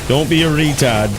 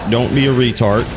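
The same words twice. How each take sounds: First: It is said in a rough Boston-like accent. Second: It is said in the speaker's plain voice.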